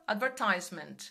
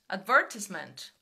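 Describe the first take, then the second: First: It is said with an American accent. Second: It is said with a British accent. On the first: "vai sair no americano... eu continuo falando tomato e advertisement" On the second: "aqui eles falam"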